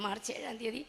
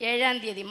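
First: Much softer, തീയതി rising at the end; soft repeat. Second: ഏഴാം said louder with a falling pitch; stress on the date. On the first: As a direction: murmur it back with തീയതി lifting. (മൃദുവായി ആവർത്തിക്കുന്നു) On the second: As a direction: land hard on ഏഴാം, then drop. (ഏഴാം എന്ന വാക്കിന് ഊന്നൽ) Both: Real, not acted.

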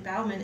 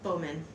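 First: Bauman said with an "ow" as in cow; mispronounced name. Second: Bowman said with a long "oh", like bow-man; corrected name. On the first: Teacher names her friend, saying Bauman with an ow sound. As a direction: say Bauman rhyming with now-man. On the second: Teacher repeats the corrected name, Bowman with a long o. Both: Real, not acted.

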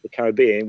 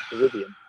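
First: Said in the usual way. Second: "Caribbean" said with American-style intonation. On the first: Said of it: "if I'm now doing it with". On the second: Shown as a demonstration. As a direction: give "Caribbean" an American lilt, without the full accent. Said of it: "I can say it with the intonation".

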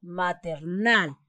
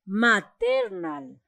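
First: Maternal stressed on its last syllable, nal. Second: Maternal with ter pushed up high; slow, deliberately misstressed maTERnal; wrong stress on TER. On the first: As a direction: say maternal with the weight falling on final nal. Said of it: "La palabra correcta es". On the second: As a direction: misplace the stress in maternal onto the middle syllable, ter. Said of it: "le pongo acá más fuerte el sonido". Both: Shown as a demonstration.

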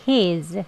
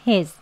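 First: He's with a drawn-out ee; long he's. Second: He's with a brief vowel; short he's. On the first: Teacher demonstrates the long form, drawn-out he's. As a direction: stretch the vowel of he's slowly. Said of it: "길게". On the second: Teacher contrasts it with the long form, short he's. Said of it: "짧게". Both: Shown as a demonstration.

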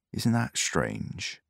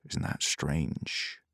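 First: A slow, quiet mutter. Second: Slow whispered repeat, barely voiced; slow whispered echo; whispered mutter. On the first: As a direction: mutter it slowly to yourself. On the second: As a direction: breathe it out slowly, almost inaudible. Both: A narrator's reading. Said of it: "muttered the man".

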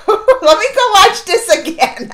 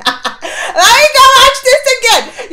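First: Laughing eagerness. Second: Higher, louder and slow, half crying; giddy laughing. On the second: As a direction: squeal it through laughter. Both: Real, not acted.

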